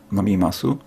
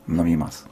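First: The final u vowel is clearly pronounced. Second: The final u vowel is dropped. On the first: "zamiast mówić" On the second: "jest im po prostu wygodniej mówić"

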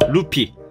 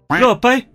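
First: The name is said with plain Korean pronunciation. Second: The name is said with Chinese-style pronunciation.

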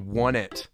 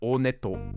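First: The name starts with a 'wuh' sound. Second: The name starts with an 'oh' sound. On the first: This is the reading of the Romanized spelling. "if you read it Romanized correctly" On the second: This is how the name is actually pronounced. "the way that it is actually pronounced"

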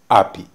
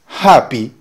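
First: The word starts with no h sound. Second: The word starts with an audible h sound. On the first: "dice happy" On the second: "en lugar de decir happy para decir feliz"

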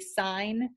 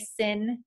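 First: The vowel is long, like the word sign. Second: The vowel is short, like the word sin. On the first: The speaker calls it right. "say sine" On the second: The speaker calls it wrong. "don't say sin"

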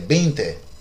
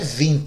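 First: It sounds like Spanish veinte. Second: It sounds like Portuguese vinte. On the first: The speaker calls it right. "é 20" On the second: The speaker calls it wrong. "Não é 20"

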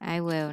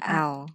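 First: It is said as two full words. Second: It is said as one contracted syllable. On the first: "I will nè" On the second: "Để đọc là I'll"

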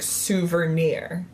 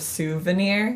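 First: The word is said with an added R sound. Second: The word is said without an added R sound. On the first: The speaker calls it wrong. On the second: The speaker calls it right.

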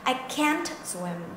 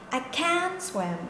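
First: The t at the end of can't is heard. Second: The t at the end of can't is dropped. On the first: "Một câu là mình có t" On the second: "còn một câu thì mình không có t"

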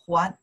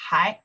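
First: It is read as the syllable huán. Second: It is read as the syllable hái. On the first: It means to return something. "more prefer for return, we pronounce the 还" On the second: It means still or yet. "Still, we pronounce the 还"

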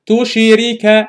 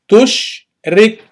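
First: The word is said as four syllables. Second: The word is said as two syllables. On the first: The speaker calls it wrong. "I don't say tushirika" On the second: The speaker calls it right. "No, tushrik"

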